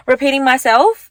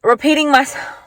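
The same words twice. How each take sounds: First: "repeating myself" said through a light laugh, ending on a rise. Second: Said in the usual way. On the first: Real, not acted. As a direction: laugh at yourself while saying "repeating myself". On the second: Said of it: "what's it called?".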